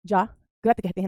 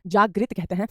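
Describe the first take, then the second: First: जागृत as "jaag-rat", in two slow pieces; pronunciation contrast. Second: जागृत as "jaag-rit"; pronunciation contrast. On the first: (जागृत को जाग्रत बोलें) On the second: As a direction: end जागृत on "rit" with short i. (जागृत को जाग्रित बोलें) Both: Shown as a demonstration. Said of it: "ना कि जागृत कहते हैं".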